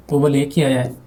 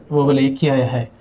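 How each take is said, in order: Both takes have the same delivery.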